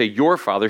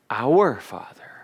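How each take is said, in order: First: Said in the usual way. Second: Slow hushed whisper. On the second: Shown as a demonstration. Preacher contrasting your and our for the listeners, slow whisper. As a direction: whisper it slowly, tenderly. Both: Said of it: "It's a relational prayer".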